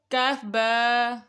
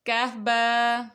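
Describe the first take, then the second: First: Stretches کاف با very slowly, each letter long; drawn-out recitation. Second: Reads کاف با slowly, letter by letter; slow letter reading. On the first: Teacher repeating for children, very slow drawn spelling. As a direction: draw out کاف and با for the child to copy. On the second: Teacher to children reading the slate, slow spelling. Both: Shown as a demonstration. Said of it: "اگلی دیکھتے ہیں line".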